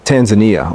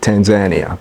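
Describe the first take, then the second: First: It is said the American way. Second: It is said the East African way. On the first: "in America, we pronounce it Tanzania" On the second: "here they pronounce it Tanzania"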